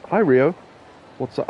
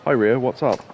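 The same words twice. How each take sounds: First: High, louder put-on woman's voice. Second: Said in the usual way. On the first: Greeting himself as the game girl, in a woman's voice. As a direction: chirp a hello as the girl. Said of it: "started doing the woman's voice". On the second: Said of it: "Oh, no, that's me".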